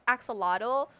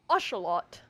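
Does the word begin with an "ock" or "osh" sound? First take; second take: ock; osh. First: The word begins with an "ock" sound. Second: The word begins with an "osh" sound. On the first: "I know I say ox, axolotl" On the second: "the pronunciation of Osh"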